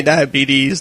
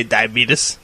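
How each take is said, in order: First: Said in the usual way. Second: "diabetes" ending in -tus, not -teez; folksy pronunciation. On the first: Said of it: "they don't say diabetes". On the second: Shown as a demonstration. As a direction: say "diabetes" to rhyme its last syllable with "lettuce". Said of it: "they say diabetes".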